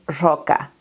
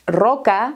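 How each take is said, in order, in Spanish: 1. La r suena parecida al sonido sh. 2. La r es un sonido de r española normal. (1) "a veces la pronuncian como una sh" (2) "en vez de decir roca"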